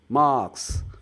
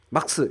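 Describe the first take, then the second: First: The vowel is drawn out long. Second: The vowel is clipped short. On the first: The speaker calls it right. "장음으로 빼는 게 아 발음의 핵심이죠" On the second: The speaker calls it wrong. "막스 이러면 안 되고, 못 알아듣고"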